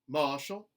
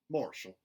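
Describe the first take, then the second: First: The R sound is dropped. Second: The R sound is hard and strong. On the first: "a general Southern dropped R" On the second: "mountain, where the R sounds are retained, but they are hardened"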